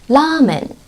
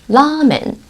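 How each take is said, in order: Both takes have the same delivery.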